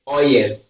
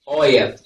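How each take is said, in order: No difference in how they are said.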